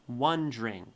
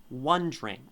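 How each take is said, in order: The two takes are said the same way.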